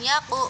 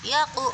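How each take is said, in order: Both takes have the same delivery.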